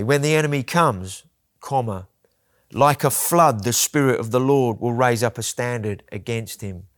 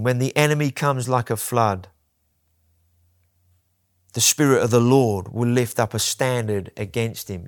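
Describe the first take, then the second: First: A pause separates "comes" from "like a flood". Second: No pause between "comes" and "like a flood".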